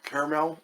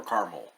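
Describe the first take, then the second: First: Caramel said CARE-uh-mel, in three syllables. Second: Caramel said CAR-mul, in two syllables. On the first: Reviewer polling viewers on pronunciation, caramel as CARE-uh-mel. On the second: Reviewer polling viewers on pronunciation, caramel as CAR-mul. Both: Shown as a demonstration. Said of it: "if you pronounce it caramel or caramel".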